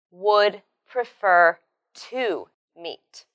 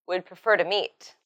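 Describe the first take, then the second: First: "would prefer to meet" slowly, with gaps between words. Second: Said in the usual way. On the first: Shown as a demonstration. Teacher models the corrected structure, "would prefer to meet" slowly word by word. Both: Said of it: "So it should be".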